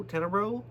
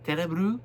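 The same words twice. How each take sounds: First: Tenebro, ending on a clear -o; wrong pronunciation. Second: Tenebru, ending on -u instead of -o; TE-ne-bru, last vowel an oo; corrected pronunciation. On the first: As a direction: say Tenebro as spelt, TE-ne-bro with an o. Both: Shown as a demonstration. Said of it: "I believe it's pronounced Tenebru".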